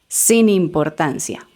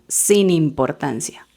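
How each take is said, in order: First: The two words run together as one. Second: The same.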